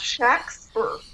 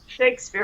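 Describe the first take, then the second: First: The first vowel is a short A sound. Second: The first vowel is a long A sound. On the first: The speaker calls it right. "emphasize the short A" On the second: The speaker calls it wrong. "it wasn't pronounced like Shakespeare"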